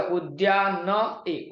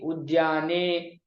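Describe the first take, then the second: First: उद्यान ए said slowly in separate pieces, ए apart; sounds separated. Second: उद्याने said as one slow, drawn-out word; sounds joined. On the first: Teacher showing which sounds get joined, slow separated pronunciation. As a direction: break off the final ए in उद्यान ए. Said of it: "सभी वर्णों को मिला करके". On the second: Teacher giving the combined word, slow joined-up pronunciation. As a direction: blend the final ए into उद्याने and hold it. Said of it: "संयोग करके". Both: Shown as a demonstration.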